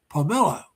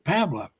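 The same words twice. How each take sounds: First: The name is said the Filipino way. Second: The name is said the American way. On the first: "she pronounces it Pamela" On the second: "if we pronounce it the way we do in the United States"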